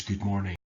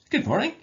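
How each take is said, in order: First: Said in the usual way. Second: "Good morning" much higher and louder, rising at the end; enthusiastic. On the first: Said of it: "if you were to say the words". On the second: Shown as a demonstration. Teacher showing the class an enthusiastic "Good morning". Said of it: "an enthusiastic or positive, um, tone".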